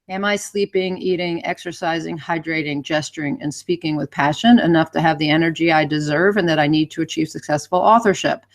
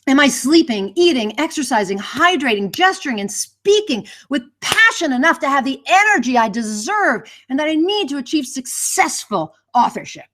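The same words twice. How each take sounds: First: It is read flatly with no energy. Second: It is read with lively, high energy.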